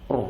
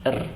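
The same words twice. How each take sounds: First: The r is pronounced thick and heavy. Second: The r is pronounced thin and light. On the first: "Ketika dia tebal"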